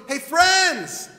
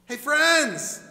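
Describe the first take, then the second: First: Loud, higher hail of friends; shouted hey, friends; calling out. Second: Repeated hail, a bit less loud; second, gentler hey, friends; softer call. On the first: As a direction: call across the water to get attention. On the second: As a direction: call again, easing off. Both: Acted. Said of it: "He's going".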